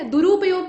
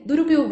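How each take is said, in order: First: दुरुपयोग with a long drawn रू; wrong long ऊ. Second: दुरुपयोग with a short quick रु; correct short ऊ. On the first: Teacher to students, showing the mistake: long रू. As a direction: say दुरुपयोग stretching the ऊ after र. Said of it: "हम लोग बोलते हैं ना". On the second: Teacher to students, showing the right way: short रु. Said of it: "तो र पे कौन सा ऊ है". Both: Shown as a demonstration.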